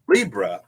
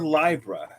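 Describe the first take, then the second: First: The first syllable sounds like 'lee'. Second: The first syllable sounds like 'lie'.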